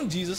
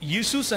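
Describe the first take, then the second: First: The name begins with a J sound. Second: The name begins with a Y sound. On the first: This is how English speakers say it. "తెల్లోళ్ళు మాత్రం జీసస్ అని పలుకుతారు" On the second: This is how German and Latin American speakers say it. "యూసూస్ అనే పలుకుతారు"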